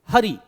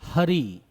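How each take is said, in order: First: The first syllable is stressed; the final vowel is short. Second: The first syllable is unstressed; the final vowel is long. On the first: The speaker calls it right. "तो इसीलिए हरि" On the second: The speaker calls it wrong. "अगर आपने यहां पे हा पे बल नहीं लगाया तो आप क्या बोलोगे"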